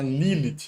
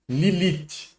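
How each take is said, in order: First: The stress is on the first syllable. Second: The stress is on the second syllable. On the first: The speaker calls it wrong. "a pronúncia é americanizada, né? Lilith, mas está errado" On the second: The speaker calls it right. "O acento é no segundo li"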